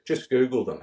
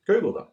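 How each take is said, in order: First: Said in the usual way. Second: "Google them" pushed higher and louder, the word "Google" hit hard; insistent repeat. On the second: Retold or imitated. Family urging Heath to look people up, insistent "Google them". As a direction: press the point, "Google them", with a raised, louder "Google". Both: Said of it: "and the family says".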